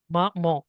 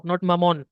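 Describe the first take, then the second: First: Maman ending in a nasal on, no n; French nasal vowel. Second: Maman with a pronounced final n; wrong pronunciation. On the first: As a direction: say maman with a nasal final vowel, tongue off palate. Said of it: "There'll be a nasal voice". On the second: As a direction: say maman ending on a clear n sound. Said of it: "here we have maman". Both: Shown as a demonstration.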